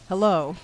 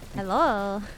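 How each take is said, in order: First: The greeting is said in a confident voice. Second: The greeting is said in a shy voice. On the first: "should really do the voice" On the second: "my typical like I'm shy kind of voice"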